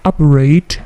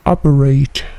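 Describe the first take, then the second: No difference in how they are said.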